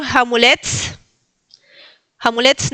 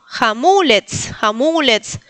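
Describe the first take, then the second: First: "jamulets" with stress off the MU; wrong stress. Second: "jamulets" slowly, MU held and stressed; second-syllable stress. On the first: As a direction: say "jamulets" without stressing the middle syllable. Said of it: "No digan". ("jamulets" mal acentuado) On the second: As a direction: say ja-MÚÚ-lets with final ts. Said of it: "En la segunda sílaba el acento". ("jamulets" con acento en "mu") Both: Shown as a demonstration.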